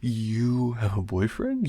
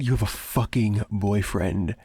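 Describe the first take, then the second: First: Put-on slow, disbelieving question rising on "boyfriend"; stunned question. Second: "fucking" hit hard, falling statement; indignant. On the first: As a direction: ask it slowly, taken aback. Stunned by roommate's news of boyfriend. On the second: Acted. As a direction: repeat it as an angry accusation. Repeats the news, now angry.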